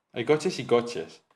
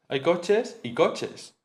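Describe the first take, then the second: First: Slow, even "Hay coches y coches" with a flat fall; "coches y coches" drawn out evenly as a big pile; meaning lots of cars. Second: Slow, stress the second "coches" as the better kind; "Hay coches y coches" drawn out, the second "coches" marked with a fall; better and worse cars. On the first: Teacher shows intonation meaning many cars. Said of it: "indicando que hay muchos coches". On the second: Teacher shows intonation meaning better and worse cars. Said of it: "coches mejores y coches peores". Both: Shown as a demonstration.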